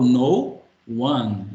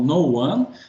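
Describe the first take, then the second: First: The two words are said separately. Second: The two words are linked together. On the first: The speaker calls it wrong. "eu não falo no one" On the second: The speaker calls it right. "eu falo no one, então algumas a gente vai junto"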